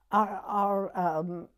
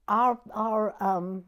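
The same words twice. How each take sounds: The two takes are said the same way.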